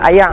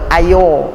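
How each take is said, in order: First: The word is said in a Penang dialect. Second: The word is said in a Perak dialect. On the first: "orang Pening kata ayak" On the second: "Orang Perak kata ayo"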